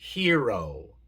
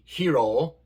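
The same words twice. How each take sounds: First: The o is a long, gliding 'oh' sound. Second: The o is a short, pure Spanish-like vowel. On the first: The speaker calls it right. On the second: The speaker calls it wrong.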